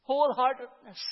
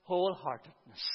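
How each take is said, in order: First: Wholeheartedness said again, higher and louder; preacher to congregation, hammering Wholeheartedness higher and louder; emphatic repeat. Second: Said in the usual way. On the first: Shown as a demonstration. Hit Wholeheartedness hard the second time. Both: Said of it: "The word".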